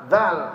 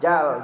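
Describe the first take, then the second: First: The word starts with a 'dh' sound. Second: The word starts with a 'j' sound. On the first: The speaker calls it right. "suruh ngomong zal" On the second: The speaker calls it wrong. "nggak bisa"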